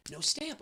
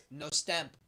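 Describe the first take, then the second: First: Higher rising no stamp; can't believe it; disbelief. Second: Said in the usual way. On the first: Real, not acted. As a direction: lift stamp into a stunned question. Teller's own disbelief at missing stamp.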